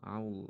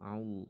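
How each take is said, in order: First: A w-like glide comes before the l. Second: A w-like glide comes before the l.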